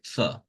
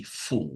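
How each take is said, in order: First: "for" reduced to a schwa; unstressed weak form. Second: "for" with its full vowel; stressed full form. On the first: Teacher giving the unstressed form, schwa in "for". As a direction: say "for" short and weak, as fuh. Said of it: "If it's unstressed". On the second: Teacher giving the dictionary's stressed form, full vowel in "for". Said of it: "if it's stressed". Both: Shown as a demonstration.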